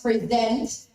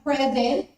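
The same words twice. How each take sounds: First: The stress is on the second syllable. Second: The stress is on the first syllable. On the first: It is a verb. "if you shift the stress to the second syllable" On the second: It is a noun. "it's a noun"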